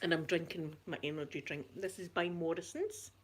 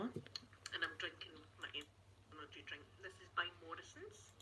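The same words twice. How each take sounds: First: Said in the usual way. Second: Muted. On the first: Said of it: "Pardon moi". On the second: Shown as a demonstration. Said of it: "There, I've muted it".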